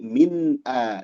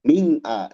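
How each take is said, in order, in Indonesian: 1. Bunyi n diucapkan jelas dan terpisah. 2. Bunyi n kabur menyatu dengan vokal. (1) "Dibaca jelas" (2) "Jangan min a"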